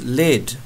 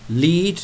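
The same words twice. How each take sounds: First: The word is said with a short 'e' vowel. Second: The word is said with a long 'ee' vowel. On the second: "you walk your dog on a lead"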